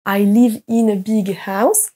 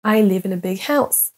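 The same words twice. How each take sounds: First: "I live in a big house" word by word, all equally strong; every word equally stressed. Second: "in a" reduced and linked, key words standing out; natural English intonation. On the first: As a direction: give "in" and "a" full weight. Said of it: "Ne prononcez pas". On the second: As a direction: let "live", "big", "house" carry the sentence. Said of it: "plus fort et plus longtemps certains mots". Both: Shown as a demonstration.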